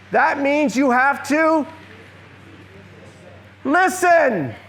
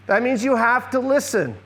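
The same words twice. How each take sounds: First: Listen drawn out high and loud after a pause; stress on listen. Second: Said in the usual way. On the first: Shown as a demonstration. Teacher to the audience, slow with a loud high listen. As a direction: hold back, then land hard on listen.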